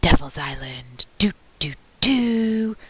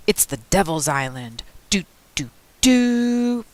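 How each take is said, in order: First: Whispered spooky imitation. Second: Deep spooky voice. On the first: Boy alone copying his best friend's spooky line, whispering. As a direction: whisper it eerily like a radio thriller. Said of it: "I whisper, just like Pete". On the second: Best friend joking about the island like radio, deep spooky voice. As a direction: play up the spooky radio sting. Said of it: "Pete would say in a deep, spooky voice". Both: A narrator's reading.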